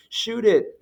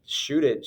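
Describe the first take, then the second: First: High, louder imitated fan shout; crowd yelling. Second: Said in the usual way. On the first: Crowd yelling at a far-off player to shoot, mock shout. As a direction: yell it like a spectator calling out. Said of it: "a chorus of people just started yelling".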